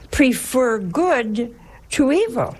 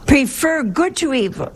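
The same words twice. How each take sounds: First: Prefer good to evil, drawn out slowly with evil leaned on and falling; slow stress on evil. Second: Prefer good to evil, pitched high with good hit hard and falling; stress on good. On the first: Preacher slowly spelling out the Lord's command, stress on evil. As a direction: stretch each word and let evil drop at the end. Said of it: "our Lord is telling us now". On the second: Preacher repeating the Lord's command, good punched high. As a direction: lift up and punch the word good. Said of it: "our dear Lord is telling us here". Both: Shown as a demonstration.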